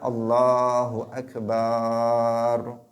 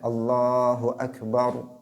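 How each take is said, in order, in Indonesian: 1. Vokal setelah huruf b dibaca panjang. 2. Vokal setelah huruf b dibaca pendek. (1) "Gak boleh mengatakan" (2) "dia harus membacanya dibaca pendek"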